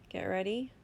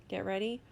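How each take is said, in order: Both takes have the same delivery.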